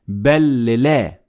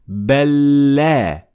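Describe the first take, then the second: First: The two l sounds are said separately. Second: The two l sounds merge into one doubled l. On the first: The speaker calls it wrong. "not bellila. That is not correct" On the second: The speaker calls it right. "So we say bella"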